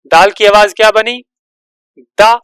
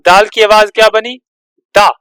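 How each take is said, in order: Both takes have the same delivery.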